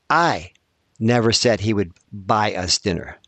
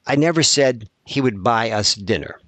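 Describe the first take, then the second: First: The word I carries strong stress. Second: It is said as a plain, even statement. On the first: Someone else said it. "I didn't say it. Somebody else said that he'd buy us dinner" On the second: It is a simple statement of fact. "that's a statement"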